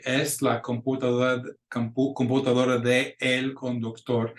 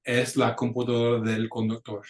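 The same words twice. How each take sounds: First: "de el" said as two separate words; careful "computadora de el conductor" with de and el apart; the wrong way, "de el" kept apart; wrong uncontracted form. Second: "del" run together as one word; smooth "computadora del conductor", del as one syllable; the right way, "del" in one sound; right contracted form. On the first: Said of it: "We don't say". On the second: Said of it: "we say that so fast". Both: Shown as a demonstration.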